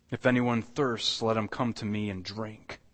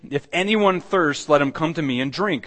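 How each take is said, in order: First: Gentle invitation. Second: Raised, ringing proclamation; proclaimed invitation. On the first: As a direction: say it as a quiet welcome. Invitation repeated softly. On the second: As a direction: call it out boldly to the crowd. Preacher proclaims Jesus' invitation. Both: Acted.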